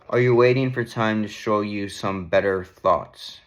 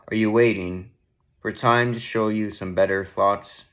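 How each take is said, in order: First: It is read quickly and casually. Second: It is read slowly and deliberately.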